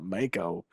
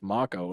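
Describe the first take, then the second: First: It is pronounced with an English-style reading. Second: It is pronounced the way anime says it. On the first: The speaker calls it wrong. "not Mako, like I called it when I played Original Seven" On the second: The speaker calls it right. "I've watched enough anime now to know that it's pronounced Mako"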